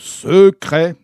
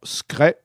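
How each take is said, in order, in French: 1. Le mot « secret » sonne lourd, massif et écrasant. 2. Le mot « secret » sonne léger, aérien et furtif. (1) "est écrasant, mastoc, éléphantesque" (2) "avec quelque chose de furtif, de discret, d'aérien, de léger"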